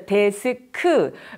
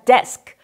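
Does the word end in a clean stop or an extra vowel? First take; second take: extra vowel; clean stop. First: An extra vowel follows the final k sound. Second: The word ends cleanly on the k sound. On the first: The speaker calls it wrong. "이걸 우리말로는 으를 붙여서 쓰기도 하고" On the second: The speaker calls it right. "이렇게 딱 끊어지는 발음이 필요할 때가 있다"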